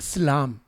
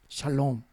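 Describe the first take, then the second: First: The last vowel is an 'a' sound. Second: The last vowel is an 'o' sound. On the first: This is the older form of the word. "이 오가 원래 아람어는 아 발음이었대요" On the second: This is the later, changed form of the word. "오음이 되면 바뀐 거거든요"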